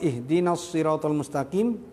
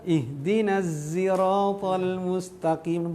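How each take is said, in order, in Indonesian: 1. Kata siratal diawali dengan s tebal. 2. Kata siratal diawali dengan bunyi z. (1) "Pertama pakai shad" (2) "Yang ketiga pakai za"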